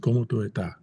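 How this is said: It is said Dominican-style, S sounds dropped.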